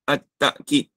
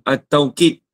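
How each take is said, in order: First: The first syllable ends in a glottal stop. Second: The first syllable has the diphthong 'au'. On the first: This reading is also common. "Takkid tu baca dengan hamzah" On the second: This is the most common reading. "bil waw"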